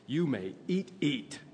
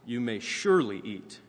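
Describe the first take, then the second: First: Eat, eat said higher, stressed twice; doubled eat. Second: Surely leaned on, a bit louder; quoting the English, surely emphasized; stress on surely. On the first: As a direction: repeat eat for emphasis like the Hebrew. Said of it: "the first one would be". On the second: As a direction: lean into the word surely. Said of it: "with this word surely". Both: Shown as a demonstration.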